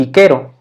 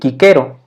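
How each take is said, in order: First: The c's are pronounced as K sounds. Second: The same.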